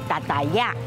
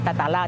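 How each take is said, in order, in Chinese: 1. 最后一个音节以Y音开头。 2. 最后一个音节以L音开头。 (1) "他们叫达达亚" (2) "我们叫达达拉"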